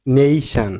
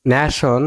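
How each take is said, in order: First: Nation as "NEI-shan"; correct pronunciation. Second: Nation as "nya-shon"; wrong pronunciation. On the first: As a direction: lengthen and stress "nei" in nation. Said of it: "it will be". (nation, "নেইশান" উচ্চারণে) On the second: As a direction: say nation with Bangla-style flat vowels. (nation, "ন্যাশন" উচ্চারণে) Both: Shown as a demonstration.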